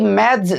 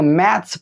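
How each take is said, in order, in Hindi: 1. शब्द एक भिनभिनाती z ध्वनि से खत्म होता है। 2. शब्द एक फुफकारती s ध्वनि से खत्म होता है। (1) "ना कि मैथ्स जो नहीं पढ़ेंगे" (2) "सौ पढ़ेंगे"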